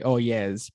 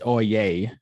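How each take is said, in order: First: The second part sounds like 'yes'. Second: The second part sounds like 'yay'. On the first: The speaker calls it wrong. "that is the incorrect way of saying it" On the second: The speaker calls it right.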